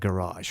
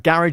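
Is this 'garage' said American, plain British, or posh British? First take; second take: American; plain British. First: It is said in an American accent. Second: It is said in an ordinary British accent. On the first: "if you're from America" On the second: "is what we call it here in the U K"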